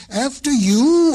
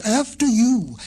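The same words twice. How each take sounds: First: Higher, louder after you; urgent insist. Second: Said in the usual way. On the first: A narrator's reading.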